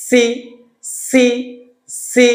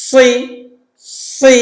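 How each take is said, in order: First: "সি" with sharp light s; Seen's SI. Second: "সি" thick, air pressed then released; pressed Saad SI. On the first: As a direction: clean hiss on each "সি". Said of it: "সিন জেড". (সিনের "সি") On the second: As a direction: push the air through heavy "সি". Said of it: "বাতাসে চাপ দিয়ে ছেড়ে দিচ্ছি". (বাতাসে চাপ দিয়ে "সি") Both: Shown as a demonstration.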